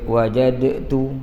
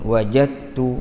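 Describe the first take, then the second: First: The d is released with an echoing bounce. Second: The d merges into t without a bounce. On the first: The speaker calls it wrong. "Jadi kita tak baca wajadtu, jadi payah" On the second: The speaker calls it right. "mana tak adalah uh, bunyi qalqalah itu"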